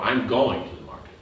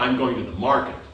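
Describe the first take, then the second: First: The stress is on going. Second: The stress is on market.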